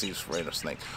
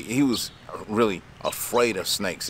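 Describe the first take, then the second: First: Softer, fading echo of the line; quiet repeat. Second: Said in the usual way. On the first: Real, not acted. Telling about the scared customer, quietly. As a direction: drop it to an aside. Repeats the point, dropping away.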